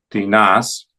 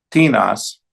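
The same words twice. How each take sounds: First: "tinas" as ti-NAS; stress on last syllable. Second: "tinas" as TI-nas, falling; stress on first syllable. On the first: Teacher showing the accented ending, ti-NAS stressed last. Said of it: "en la última sílaba". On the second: Teacher reciting interrogative forms, TI-nas stressed up front. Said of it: "la primera sílaba". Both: Shown as a demonstration.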